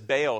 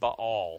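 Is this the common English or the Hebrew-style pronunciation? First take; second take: English; Hebrew. First: It uses the common English pronunciation. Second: It uses the Hebrew-style pronunciation. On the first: This is how most people say it. The speaker calls it wrong. "Everybody that says Baal" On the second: This is how it should be said. The speaker calls it right. "should be saying Baal"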